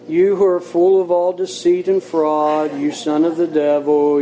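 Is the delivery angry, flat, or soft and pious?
flat. It is said flatly, on one level pitch. The speaker does not feel what is said. The speaker calls it wrong. "he could have said it in a monotone"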